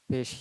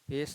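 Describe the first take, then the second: First: The word ends with an 'sh' sound. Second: The word ends with an 's' sound. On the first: The speaker calls it right. "पेश पेश ही रहेगा" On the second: The speaker calls it wrong. "पेश नहीं होना चाहिए"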